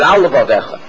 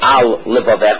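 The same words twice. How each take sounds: First: A single L sound joins the two words. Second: Two separate L sounds are heard between words. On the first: The speaker calls it wrong. "you're going to have one lamed that's the end of the al and the beginning of levavecha" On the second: The speaker calls it right. "have two lameds"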